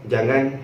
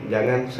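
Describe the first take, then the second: The two takes are said the same way.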